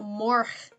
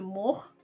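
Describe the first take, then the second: First: It has an R sound after the vowel. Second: It has no R sound after the vowel.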